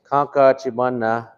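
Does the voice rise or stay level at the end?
level. It is said as a flat statement.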